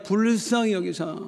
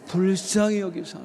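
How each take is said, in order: First: 불쌍히 stressed, falling at the end; leading the congregation to repeat. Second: Said in the usual way. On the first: Shown as a demonstration. Pastor leads the church in repeating, 불쌍히 stressed. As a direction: say 불쌍히 firmly and let it fall. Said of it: "따라하게, 불쌍히 여기사". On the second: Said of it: "따라하게".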